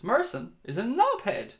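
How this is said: It is said in a changed, put-on voice.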